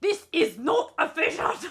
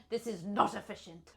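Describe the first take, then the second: First: High, loud mock German; German accent. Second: Put-on restrained, softer German accent. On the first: Player obeying the German prompt, loud German accent. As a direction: put on a stern, hammed-up German accent. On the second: Player repeating the line, toned-down German accent. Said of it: "the German".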